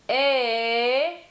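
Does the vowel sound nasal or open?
open. The vowel sounds open, with little nasality. "opening your throat and just shaping the vowel more with your tongue"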